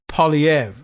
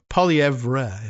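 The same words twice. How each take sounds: First: The name ends without an audible R sound. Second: The name ends with an audible R sound.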